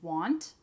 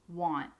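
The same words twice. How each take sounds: First: The word ends with an audible T sound. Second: The word ends without an audible T sound. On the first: "want with the T at the end" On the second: "Usually we cut it off and we say want"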